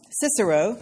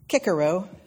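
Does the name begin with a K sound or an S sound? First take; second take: S sound; K sound. First: The name begins with a soft S sound. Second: The name begins with a hard K sound.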